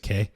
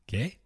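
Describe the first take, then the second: First: It is said flat, without a questioning rise. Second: It is said with a rising, questioning tune.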